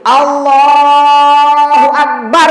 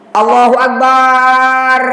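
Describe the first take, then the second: First: The vowel in Allah is long; bar is short. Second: The vowel in bar is drawn out long. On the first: The speaker calls it right. "lafaz Allahnya itu panjang. Ebahnya pendek" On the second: The speaker calls it wrong. "itu terbalik. Barnya panjang"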